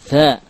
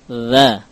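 First: The consonant is breathy, with air escaping. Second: The consonant is voiced, without escaping breath. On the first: The speaker calls it wrong. "Contoh yang keliru. ... Dhal tapi tercampur dengan tha. Ada sifatul hams" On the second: The speaker calls it right. "Adapun dhal adalah huruf majhurah"

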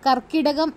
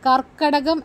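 First: The vowel after the double k is i. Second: The vowel after the double k is a. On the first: The speaker calls it wrong. "ശരിയായ വാക്ക് കർക്കിടകം അല്ല" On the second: The speaker calls it right. "കർക്കടകം എന്നാണ്"

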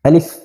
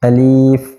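First: The word is said quickly and short. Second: The word is said slowly and drawn out. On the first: The speaker calls it right. "খুব তাড়াতাড়ি পড়তে হবে, যেমন আলিফ" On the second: The speaker calls it wrong. "অনেকে উচ্চারণ করার সময় আলিফ এভাবে পড়ে, এভাবে পড়লে উচ্চারণটা সঠিক হবে না"

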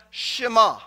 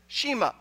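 First: It is said the way Jewish speakers pronounce it. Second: It is said the way the pastors pronounced it. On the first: "they refer to it as the Shema" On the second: This is the familiar churchgoers' pronunciation. "pastors pronounced it Shema"

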